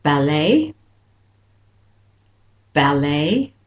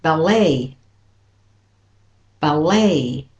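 First: "ballet" with first syllable stressed, tune rising at the end; British stress on ballet. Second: "ballet" with second syllable stressed, falling tune; light "bal", hit "LAY" in "ballet"; American stress on ballet. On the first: Teacher models British and Australian for learners, first-syllable stress on "ballet". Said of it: "So for British and Australian". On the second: Teacher models American for learners, second-syllable stress on "ballet". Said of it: "And for the American". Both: Shown as a demonstration.

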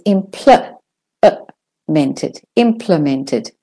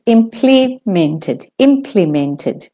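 First: "implemented," in an American accent; American pronunciation. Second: "implemented," in a British accent, slow; British pronunciation. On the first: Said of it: "for the American and the Australian". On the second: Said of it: "for the British". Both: Shown as a demonstration.

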